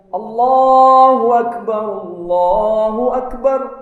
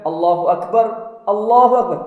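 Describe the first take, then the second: First: The two phrases run together without a pause. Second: A pause separates the two phrases. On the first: The speaker calls it right. "Yang tepat disambung" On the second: The speaker calls it wrong. "Bukan ... Tidak begitu"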